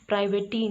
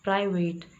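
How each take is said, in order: First: The word ends with an added 'ee' vowel. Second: The word ends without any added vowel. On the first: The speaker calls it wrong. "प्राइवेटी नहीं है" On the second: The speaker calls it right. "ये प्राइवेट है"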